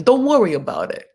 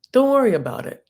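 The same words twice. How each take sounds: First: Light mock Italian accent, breezy. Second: Said in the usual way. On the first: Host voicing a proposal dodge, mock Italian accent. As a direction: toss it off like a lightly voiced Italian. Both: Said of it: "it's like Italian".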